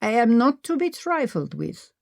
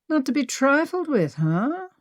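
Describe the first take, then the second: First: Lightly done fake German accent, mock stern; hint of a put-on German warning. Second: Mocking echo of her line, pitched much higher; Henry teasing Maggie by repeating her threat. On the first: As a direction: play-act a stern German. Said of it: "Maggie said in her fake German accent". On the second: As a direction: throw her words back at her, amused.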